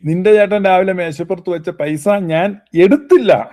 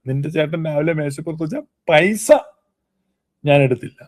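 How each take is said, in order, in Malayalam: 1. ഊന്നൽ വരുന്നത് എടുത്തില്ല എന്ന വാക്കിലാണ്. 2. ഊന്നൽ വരുന്നത് പൈസ എന്ന വാക്കിലാണ്. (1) "എടുത്തില്ല എന്നുള്ളതിന് ഊന്നൽ കൊടുത്താൽ" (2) "പൈസ എടുത്തില്ല"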